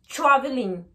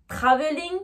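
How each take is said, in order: First: TRAVELING as "chraveling". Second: TRAVELING with full T, French R; French-accented TR. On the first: Teacher contrasting the two, TRAVELING with ch. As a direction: make the TR of TRAVELING a ch. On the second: Teacher contrasting the two, TRAVELING with French TR. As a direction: pronounce TRAVELING with a clear French TR. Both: Shown as a demonstration. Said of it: "la différence entre les deux".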